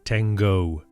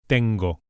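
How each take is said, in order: First: The T is heavy and the O glides. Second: The T is light and the O is pure. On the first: The speaker calls it wrong. "Resist the temptation to pronounce it tengo" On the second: The speaker calls it right. "With a light T and a pure O"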